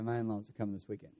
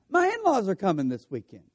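First: Much lower, much softer and fast, dreading the visit. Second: A quick, bright first reading of the text; eager reading. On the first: Preacher showing the other reading of the text message, dread. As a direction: mumble "My in-laws are coming this weekend" like bad news you'd rather not face. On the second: Preacher showing one reading of a text message, eager. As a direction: read it like happy news you can't wait to share. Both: Shown as a demonstration. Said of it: "taken in two different ways".

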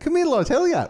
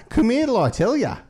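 First: Much higher, louder mock Dublin call; squeaky hammed-up Irish beckoning; Dublin phrase. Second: Much higher, louder mock Dublin call; hammed-up Irish beckoning; Dublin phrase. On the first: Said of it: "I hear Damon Clark saying that". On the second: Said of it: "they were like".

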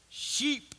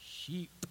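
First: Said in the usual way. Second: Soft, low "Sheep" after a pause; hushed punchline. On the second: Shown as a demonstration. Preacher answering his own question, quiet and low. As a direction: drop the word quietly.

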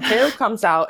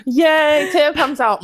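First: Said in the usual way. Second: Higher and louder, a hammed-up "Yay"; mock cheer. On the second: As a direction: cheer as if the room were celebrating. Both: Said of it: "and it's like".

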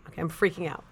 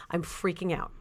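First: Said in the usual way. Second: Whispered panic. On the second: Retold or imitated. Toilet won't flush.

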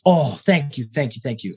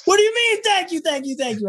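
First: Said in the usual way. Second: Much higher, incredulous retelling; retold disbelief. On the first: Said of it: "And he goes". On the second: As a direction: replay the shock of being thanked by a legend. Disbelief at legend thanking him.

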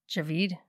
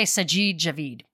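First: "Javid" whispered, unsure, rising at the end. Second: "Sajid Javid" with the weight on "-jid" and "-vid"; stress on last syllable. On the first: Real, not acted. Vlogger unsure of a minister's name, whispering it. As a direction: test "Javid" under your breath. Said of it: "I should have looked that up first". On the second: Shown as a demonstration. Vlogger settling on a name's pronunciation, stressing last syllables. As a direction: land firmly on the end of "Javid". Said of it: "I'm gonna put the emphasis on the last syllable".

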